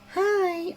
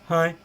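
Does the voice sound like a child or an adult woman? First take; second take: child; adult woman. First: It is said in a high child's pitch. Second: It is said in an adult woman's voice.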